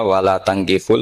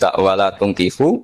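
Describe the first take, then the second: First: The verb's first vowel is an 'a' sound. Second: The verb's first vowel is a 'u' sound. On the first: Men, do not marry women who worship other gods. "bi fathita" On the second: Do not give your daughters in marriage to men who worship other gods. "harus dibaca bidomit"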